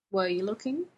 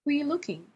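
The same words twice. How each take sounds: First: Said in the usual way. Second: WERE pitched high, falling through "looking"; pressing repeat. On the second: A narrator's reading. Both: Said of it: "Jim asked again".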